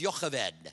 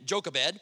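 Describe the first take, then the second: First: The name is said with a Hebrew pronunciation. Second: The name is said with an English pronunciation. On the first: "But Jochebed in Hebrew, I'll try this, is" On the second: "It's a lot prettier name than"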